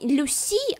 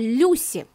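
First: The stress is on the second syllable. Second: The stress is on the first syllable. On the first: The speaker calls it wrong. "не Люси" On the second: The speaker calls it right. "Ударение на «ю»"

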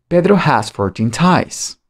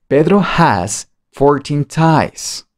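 First: The sentence is said at a faster pace. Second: The sentence is said at the slowest pace. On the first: "Más rápido" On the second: "Cada vez más rápido"

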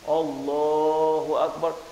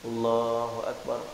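First: It is said loudly, audible far behind. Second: It is said quietly, just audible to oneself. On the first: People far behind can hear it. The speaker calls it wrong. "depan ni saya kat belakang tu dengar" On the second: Only the person praying needs to hear it. The speaker calls it right. "mesti lafaz sekadar-kadar dengar bacaan tu di telinga"

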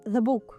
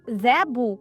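First: The vowel is reduced to a short schwa. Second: The vowel is pronounced fully and clearly. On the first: The speaker calls it right. "а" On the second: The speaker calls it wrong. "не"

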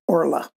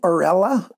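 First: The R and L run together with no vowel. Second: An extra vowel sits between the R and L.

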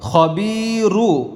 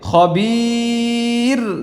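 First: The word ends with a short u vowel. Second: The word ends on the r consonant. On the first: The reading continues without stopping. "উচ্চারণটা কি হবে খবিরু" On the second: The reading stops at this word. "যেহেতু এখানে ওয়াকফ হচ্ছে, তাহলে উচ্চারণটা কেমন হবে খবির"

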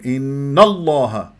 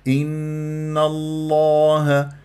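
First: Both words are pushed out with heavy stress. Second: Both words flow smoothly without forced stress. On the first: The speaker calls it wrong. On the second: The speaker calls it right.

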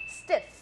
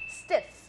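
First: The vowel is clipped short. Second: The same.

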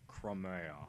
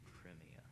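First: The first syllable sounds like "crum". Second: The first syllable sounds like "crim". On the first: The speaker calls it wrong. "Or as my friend Josh would say" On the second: The speaker calls it right. "It's crim, not crumb"

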